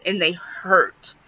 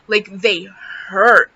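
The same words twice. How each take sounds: First: Said in the usual way. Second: "hurt" drawn out slowly and leaned on; slow, weighty stress on "hurt". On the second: Real, not acted. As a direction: repeat it emphatically, stretching the word "hurt". Repeats it for emphasis.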